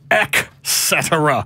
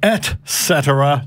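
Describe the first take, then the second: First: The first syllable is said as 'ek'. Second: The first syllable is said as 'et'. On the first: The speaker calls it wrong. "not ec cetera" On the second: The speaker calls it right. "It is et cetera"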